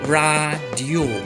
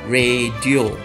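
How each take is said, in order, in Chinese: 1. 这是按照标准马来语的发音来说的。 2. 这是日常普通的说法。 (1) "在马来文里面呢，我们一定要根据舌不丹巴固，在这里我们应该念成radio" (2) "一般我们都会念成radio"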